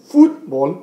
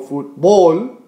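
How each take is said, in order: First: The stress is on the first syllable. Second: The stress is on the last syllable. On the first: The speaker calls it right. "estamos poniendo más énfasis en la U aquí" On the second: The speaker calls it wrong. "no fútbol"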